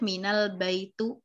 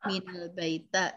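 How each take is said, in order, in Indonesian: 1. Frasanya berakhir dengan vokal u. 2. Frasanya berakhir dengan vokal a. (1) "salah besar" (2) "juga salah besar"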